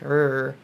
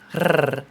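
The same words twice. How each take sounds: First: A smooth English-style R sound. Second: A rolled Spanish-style R sound. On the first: "the normal English like R" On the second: "the Spanish R"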